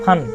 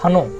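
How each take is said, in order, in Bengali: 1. শব্দটি শেষ ব্যঞ্জনেই হঠাৎ থেমে যায়। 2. শব্দটি একটি যুক্ত 'o' স্বরধ্বনি দিয়ে শেষ হয়। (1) "ফান থেমে যাচ্ছে" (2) "যখন ফানো হবে তার সাথে জানতে হবে যে অকার যুক্ত আছে"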